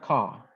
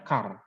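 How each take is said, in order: First: The final r is silent. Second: The final r is clearly pronounced. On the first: This follows the dictionary pronunciation. "sesuai dengan kamus car itu dibaca car" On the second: This follows a regional dialect. "dialeknya car. Rhotic R yang jelas R-nya tadi"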